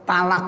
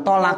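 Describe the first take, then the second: First: "talak" with light t and open a; ta-initial pronunciation. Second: "tolak" with rounded o after heavy t; heavy Arabic to. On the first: Teacher showing lay speech, higher "talak" with plain ta. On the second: Teacher contrasting with lay speech, "tolak" with heavy to. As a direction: correct "tolak", starting with to. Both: Shown as a demonstration. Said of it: "Bukan tolak".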